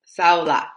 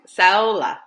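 First: "Sao La" now split into two words, "Sao" then "La"; corrected pronunciation. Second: "Saola" run together as one word, "sow-la"; trying the name. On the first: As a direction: get "Sao La" right this time, two words. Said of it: "So yeah, Sao La". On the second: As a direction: say "Saola" in one go, as first heard. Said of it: "It's the Saola". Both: Shown as a demonstration.

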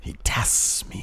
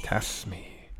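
First: Breathy hushed villain line; whispered quote. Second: Soft hushed repeat; whispered echo. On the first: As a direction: whisper it slowly and darkly. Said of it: "quoting a villain line". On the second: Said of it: "echoing the quote". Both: Retold or imitated.

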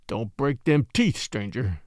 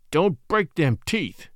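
First: Ominous. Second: Slower, heavier threat leaning on "break"; more ominous. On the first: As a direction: threaten him without raising your voice. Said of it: "saying ominously". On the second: Faro dealer repeating his warning to Scott, slower and more menacing. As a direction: repeat the warning, now darker and deliberate. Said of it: "more ominously than before". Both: A narrator's reading.

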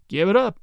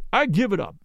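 First: Sadly. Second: Said in the usual way. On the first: Acted. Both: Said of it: "he repeated sadly".

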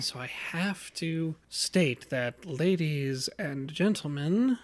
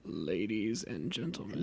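First: Slow announcer voice. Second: Low, quiet, hoarse-sounding creepy voice; creepy low voice like a sore throat; swollen tonsils voice. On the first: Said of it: "I think you actually have to do it". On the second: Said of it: "do it kinda like my brother, like, sorta creepy". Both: Shown as a demonstration.

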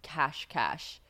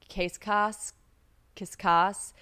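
First: "cash, cash" with sh ending both syllables; attempted pronunciation. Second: "Cascais" said as "case-kahs"; unsure mispronunciation. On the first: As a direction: say "cash, cash" as two even syllables, each ending in sh. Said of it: "I just did the pronunciation". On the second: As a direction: try "Cascais" as CASE-KAHS, ending in a plain s. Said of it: "I'm gonna say this wrong". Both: Shown as a demonstration.

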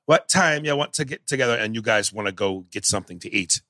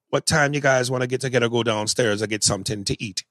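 First: Bad Jamaican accent that falls off; Denzel. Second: Attempted Jamaican accent, held steady. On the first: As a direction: imitate an actor losing his Jamaican accent midway. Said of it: "here was Denzel". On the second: Shown as a demonstration. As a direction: have a go at a fluid Jamaican accent. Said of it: "I'm not the best Jamaican accent".

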